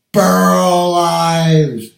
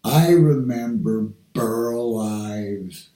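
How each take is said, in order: First: A proud loud shout of the name; calling out the name. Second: Said in the usual way. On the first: Real, not acted. Proudly calls out the singer's name.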